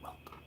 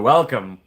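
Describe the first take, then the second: First: It is said in a whisper. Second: It is said in a normal voice.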